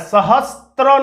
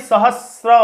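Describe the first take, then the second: First: A 't' sound comes before the final 'r'. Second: No 't' sound comes before the final 'r'. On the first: The speaker calls it wrong. "सहस्त्र नहीं" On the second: The speaker calls it right. "सहस्र होता है"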